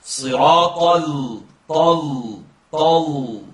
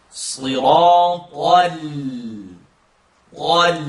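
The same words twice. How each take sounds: First: "Sliratal" with the whole flat tongue, slow; deliberately wrong sliratal. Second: "Sliratal" with the L on the tongue tip only; "tal" touched just behind the top teeth; correct sliratal. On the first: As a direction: demonstrate the wrong, heavy "tal" using all of the tongue. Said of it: "This is wrong". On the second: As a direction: say "Sliratal" with a light, forward L. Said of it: "Listen to it incorrectly". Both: Shown as a demonstration.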